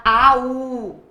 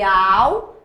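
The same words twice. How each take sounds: First: "au" split into two vowels, a-u; hiatus. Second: "au" as one gliding syllable; diphthong. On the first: Teacher contrasting two sounds for students, "au" as a hiatus. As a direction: say "au" as a, then a full drawn-out u. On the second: Teacher contrasting two sounds for students, "au" as a diphthong. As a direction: say "au" joined, the u short and weak. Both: Shown as a demonstration. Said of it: "Olha a diferença de au para au".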